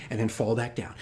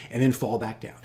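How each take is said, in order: Both takes have the same delivery.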